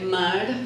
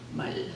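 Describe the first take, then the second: First: The word ends with an R sound. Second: The word ends with an L sound. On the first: "mar for ocean" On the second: "will sound like mal"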